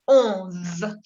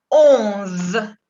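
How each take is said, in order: First: "Onze" repetido, con la Z final zumbando. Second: "Onze" con la Z final sonora, bien marcada. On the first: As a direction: alargar la zeta sonora de "Onze". ("Onze" con z larga al final) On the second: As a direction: alargar la zeta de "Onze". ("Onze" pronunciado con zeta sonora al final) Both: Shown as a demonstration. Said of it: "Il se prononce hasta la Z".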